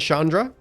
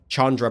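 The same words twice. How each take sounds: First: The name begins with an 'sh' sound. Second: The name begins with a 'ch' sound.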